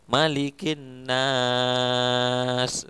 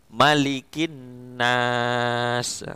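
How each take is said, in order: First: The vowel before the final consonant is drawn out longer. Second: The vowel before the final consonant is held briefly.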